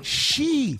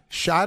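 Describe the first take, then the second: First: The first syllable sounds like 'she'. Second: The first syllable sounds like 'shy'. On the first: The speaker calls it wrong. "People have called it she" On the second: The speaker calls it right. "the correct term is Shy Tarius"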